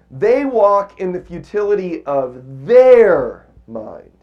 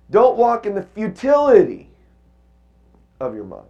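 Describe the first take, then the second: First: "their" leaned on, slow and loud; stress on their. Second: "futility" hit high and loud; stress on futility. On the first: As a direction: slowly punch the word "their". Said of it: "if I put the emphasis on this word". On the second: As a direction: lift and punch "futility". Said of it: "What if I put the emphasis on futility". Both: Shown as a demonstration.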